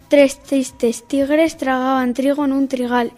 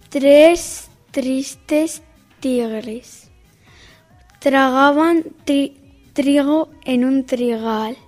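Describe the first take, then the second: First: The words are spoken at a normal pace. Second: The words are spoken at a slow pace. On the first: "A velocidad normal"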